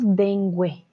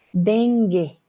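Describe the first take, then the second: First: Dengue said deng-gwe, sounding the U; teacher shows the wrong dengue with the U. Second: Dengue with a hard G and no U sound, deng-ge; teacher models the right Dengue; correct dengue. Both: Shown as a demonstration. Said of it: "No decimos dengue".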